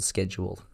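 It is said in an American accent. "English US"

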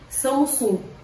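It is pronounced the way people say it there. "lá seria Samsung"

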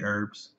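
The word herbs is said the American way. "in the US we say herbs"

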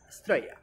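It is said clipped, like an Australian speaker. The speaker calls it right. "di Estrella"

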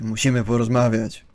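It is said in a hard, firm tone. The listener is being addressed as a drunk adult. The speaker calls it right. "takie bardziej twarde"

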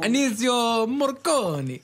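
It is said in an Italian accent.

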